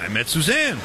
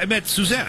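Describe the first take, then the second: First: "Suzanne" stressed with a falling close. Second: "met" lifted and stressed, higher. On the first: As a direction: land on "Suzanne" and let it fall. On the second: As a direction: hit the word "met". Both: Shown as a demonstration.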